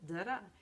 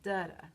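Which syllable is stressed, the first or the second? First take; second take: second; first. First: The stress is on the second syllable. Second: The stress is on the first syllable. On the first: This is the rhythm of the word until. "words like until that have the little da da" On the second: This is the rhythm of the word bacon. "words like bacon that have the opposite rhythm"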